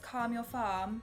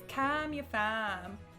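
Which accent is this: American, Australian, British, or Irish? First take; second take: British; Australian. First: It is said in a British accent. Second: It is said in an Australian accent. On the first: "Like British" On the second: "So anyway, it's"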